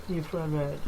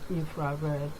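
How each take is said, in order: Both takes have the same delivery.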